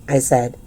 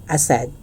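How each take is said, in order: Both takes have the same delivery.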